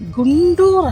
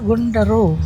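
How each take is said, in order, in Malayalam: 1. പേര് നീണ്ട 'oor' ശബ്ദത്തിലാണ് അവസാനിക്കുന്നത്. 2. പേര് 'aro' എന്ന സ്വരശബ്ദത്തിലാണ് അവസാനിക്കുന്നത്. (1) "ഗുണ്ടൂർ അല്ല" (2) "ഇത് ഗുണ്ടറോ ഡാം എന്നാണ് പറയുന്നത്"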